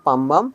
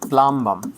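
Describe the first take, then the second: First: The L sound after the P is silent. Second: The L sound after the P is heard. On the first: "উচ্চারণটা পামবাম" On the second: "pronunciation হলো প্লামবাম"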